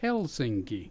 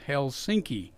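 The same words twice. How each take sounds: First: The stress is on the first syllable. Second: The stress is on the second syllable. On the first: The speaker calls it right. "the accent's always on the first syllable" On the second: The speaker calls it wrong. "he talked about Helsinki. I about threw a shoe at him"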